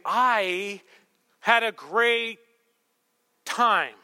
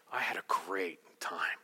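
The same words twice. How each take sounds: First: Higher, louder, drawn out; insistent date talk. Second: Low, slow whisper; hushed date talk. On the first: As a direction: push it out emphatically, word by word. Third, insistent try on date. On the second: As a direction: murmur it intimately, softly and slowly. Tender end-of-date line, acted. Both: Acted.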